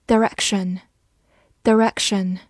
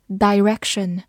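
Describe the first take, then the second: First: Direction with a weak first syllable, duh-REK-shun; reduced first vowel. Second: Direction with a long first vowel, dye-REK-shun; alternative pronunciation. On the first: Teacher drilling a word for learners, Direction said duh-REK-shun. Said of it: "或者读作direction". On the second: Teacher giving learners the other reading, direction said dye-REK-shun. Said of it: "或者读作". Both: Shown as a demonstration.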